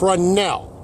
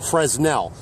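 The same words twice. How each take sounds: First: The S sound is left out. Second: The S sound is pronounced. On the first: The speaker calls it right. "The S is silent" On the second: The speaker calls it wrong. "they don't know enough to set the S as silent"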